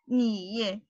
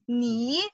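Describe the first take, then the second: First: The pitch dips low then rises. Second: The pitch rises from middle to high. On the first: "And the third tone?" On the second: "And the second tone?"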